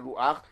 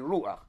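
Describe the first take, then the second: First: The stress is on the last syllable. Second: The stress is on the first syllable. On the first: The speaker calls it wrong. "You don't say Ruach" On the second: The speaker calls it right. "you lengthen the ratio of Ruach"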